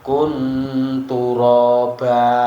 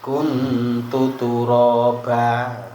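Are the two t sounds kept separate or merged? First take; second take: merged; separate. First: The two t sounds merge into one. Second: The two t sounds are kept separate. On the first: The speaker calls it wrong. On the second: The speaker calls it right.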